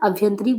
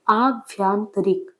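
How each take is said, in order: First: Both of the first two vowels are short. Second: Both of the first two vowels are long. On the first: The speaker calls it wrong. "अभ्यंतरिक बोलेंगे तो गलत लिखेंगे" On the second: The speaker calls it right. "आभ्यांतरिक तो सही होगा"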